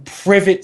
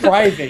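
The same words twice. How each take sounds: First: "Privet" said like PRIV-it, as the friend misspelt it; misspelt word read out. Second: "private" said PRY-vit, the correct word. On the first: Reading out a friend's misspelt stream description, "Privet" as PRIV-it. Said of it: "He just spelled Privet wrong". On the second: Correcting a friend's misspelling, "private" said PRY-vit. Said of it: "I spelled private". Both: Shown as a demonstration.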